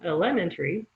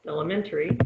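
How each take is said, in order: First: Elementary misstressed as e-LEM-entary; stress on second syllable. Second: Elementary said as el-e-MEN-tary; stress on third syllable. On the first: Teacher showing a stress mistake, second-syllable stress. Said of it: "put it on the second syllable". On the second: Teacher showing correct stress to learners, third-syllable stress. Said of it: "on the third syllable". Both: Shown as a demonstration.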